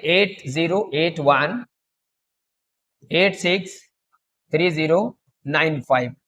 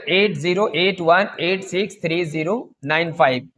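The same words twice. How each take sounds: First: Number read in chunks, slowly, with long pauses; slow dictation. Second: Slowish, in one unbroken run; repeat the number. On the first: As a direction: dictate slowly so they can write it down. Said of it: "तो लिख लीजिए". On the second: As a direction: read the whole number again steadily without pauses. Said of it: "फिर से देखिएगा". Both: Shown as a demonstration.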